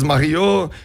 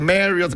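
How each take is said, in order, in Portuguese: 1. O nome é pronunciado do jeito francês. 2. O nome é pronunciado do jeito inglês. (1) "em francês Marriott" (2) "em inglês é Marriott"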